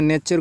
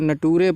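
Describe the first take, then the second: First: The middle consonant is a 'ch' sound. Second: The middle consonant is a plain 't' sound. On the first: The speaker calls it right. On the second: The speaker calls it wrong.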